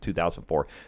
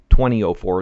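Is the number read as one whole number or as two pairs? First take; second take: whole number; two pairs. First: The number is read as one whole number. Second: The number is read as two pairs. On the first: The speaker calls it wrong. "not 2004" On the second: The speaker calls it right. "That's the right way to say that, It's like 1909 or 1903 or 1809"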